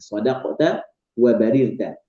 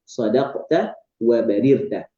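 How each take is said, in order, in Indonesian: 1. Vokal setelah R adalah 'i'. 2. Vokal setelah R adalah 'i'.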